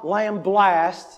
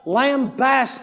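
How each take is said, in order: First: It is said with an L before the B. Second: It is said with no L before the B. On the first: The speaker calls it wrong. "not lamblast, as we like to say in the South" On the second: The speaker calls it right. "He just lambasts them"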